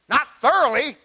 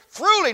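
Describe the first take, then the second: First: The word begins with the sound 'thor'. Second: The word begins with the sound 'through'. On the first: Being merely equipped. The speaker calls it wrong. "not T-H-O-R" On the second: Being furnished from the inside. The speaker calls it right. "It's T-H-R-O"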